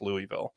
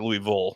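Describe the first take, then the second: First: Louisville is said the common outsider way. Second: Louisville is said the way locals say it.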